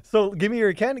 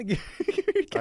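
First: Said in the usual way. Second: Laughing through the line. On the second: Real, not acted. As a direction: repeat it while laughing.

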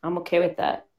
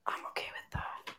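First: Said in the usual way. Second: Whispered repeat, no voice; whispering. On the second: Shown as a demonstration. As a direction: breathe it without voice.

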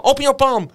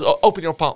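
First: High, loud sergeant command; raised-voice repeat of an order; shouted order. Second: Said in the usual way. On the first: Retold or imitated. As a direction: demand it forcefully, acted out.

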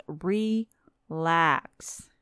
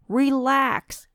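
First: Soothing relax. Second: Higher and louder, a pushy command to relax; raised relax. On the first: Vlogger soothing panicking viewers, slow and gentle. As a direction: ease it out gently, as if to calm them. Mock soothing after the rant. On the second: Vlogger ordering panicking viewers to relax, loud and high. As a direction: bark it up high. Urging panicking people to calm. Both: Acted.

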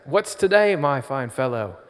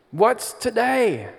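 First: Hammed-up British Scrooge; British accent as Scrooge. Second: Put-on high, slow British accent as Scrooge; Muppet Scrooge British accent. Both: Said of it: "Oh no, my accent".

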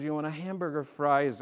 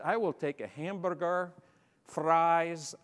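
First: Said in the usual way. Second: Higher-pitched British English with rolled R's. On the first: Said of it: "it was a young lady". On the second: Retold or imitated. Newcomer ordering at Hardee's, in British English with rolled R's. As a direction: roll the R's in hamburger and fries, British-style. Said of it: "rolling my R's".

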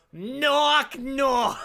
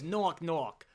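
First: Loud, high, hammed-up Boston accent; terrible Boston accent. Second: Toned-down mock Boston accent at normal volume; bad Boston accent. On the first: Cop telling a knock-knock joke, terrible loud Boston accent. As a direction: belt it out in an exaggerated Boston drawl. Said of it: "warning, here comes terrible Boston accent". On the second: Retelling the cop's knock-knock joke, mild bad Boston accent. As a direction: do a lighter, badly faked Boston accent. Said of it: "doing a bad impression of someone doing a bad".

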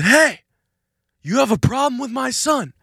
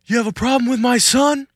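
First: High, loud repeated challenge; shouting again. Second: High, loud Italian-American challenge; Italian dad voice. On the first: Dad shouts the threat again at the attacker. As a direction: yell it over again, harder. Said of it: "my dad shouts it again". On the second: Dad threatens the attacker in an Italian accent. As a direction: confront him like a mafia dad. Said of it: "in the Italian voice". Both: Retold or imitated.

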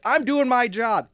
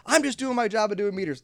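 First: High, loud, slow mock whine; mock meter maid. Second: High mock whine; mock meter maid. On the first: Meter maid defending herself, high slow mock whine. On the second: Meter maid defending herself, high mock whine. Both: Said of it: "kinda like being a meter maid".

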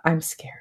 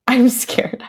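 First: Much softer, small scared voice; quiet scared. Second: Whispered with a giggle, I'm scared breathed out; laughing whisper. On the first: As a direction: admit fear softly. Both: Retold or imitated. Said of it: "I'm like".

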